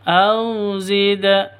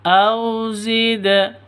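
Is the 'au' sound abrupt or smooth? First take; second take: smooth; smooth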